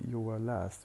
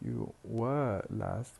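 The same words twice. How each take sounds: First: The word 'were' has a weak schwa vowel. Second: The word 'were' has a full, strong vowel. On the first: The speaker calls it right. "We pronounce it as were plus schwa only" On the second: The speaker calls it wrong. "Instead of saying"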